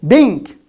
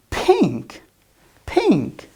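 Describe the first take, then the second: First: Loud, higher "Bink" for pink; voiced B replacing P in "Bink". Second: "pink" with a puffed P; crisp aspirated P opening "pink"; clear P sound. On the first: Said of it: "as B". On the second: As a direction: model "pink" correctly, P not B. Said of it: "This is a pink color". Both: Shown as a demonstration.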